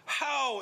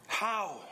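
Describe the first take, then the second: First: "How?" ऊँचा और ज़ोर से, विस्मय में; exclamatory how. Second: Said in the usual way. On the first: Shown as a demonstration. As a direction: cry out "How?" in wonder. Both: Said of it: "this again is exclamatory".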